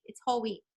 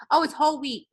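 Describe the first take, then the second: First: Much softer repeat of "It's whole wheat." to herself; quiet aside. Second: Said in the usual way. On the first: Shown as a demonstration. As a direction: mutter it again under your breath.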